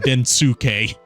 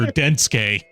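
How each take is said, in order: First: The name is said in an anglicized way. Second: The name is said the Japanese way. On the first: This is how the English dub says it. "the director of the dub didn't know how Japanese pronunciations work, everyone calls him" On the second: This is the character's original name. "he voices the main character"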